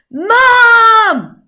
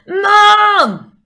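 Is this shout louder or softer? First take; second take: louder; softer. First: The word is shouted more loudly. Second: The word is shouted less loudly.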